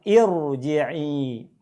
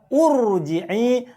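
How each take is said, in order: First: The word begins with an i vowel. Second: The word begins with a u vowel. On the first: The speaker calls it right. "tapi bacalah irji'i" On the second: The speaker calls it wrong. "bukan juga urji'i"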